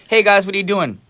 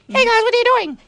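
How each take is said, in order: First: It is said in a natural voice. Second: It is said in an altered voice.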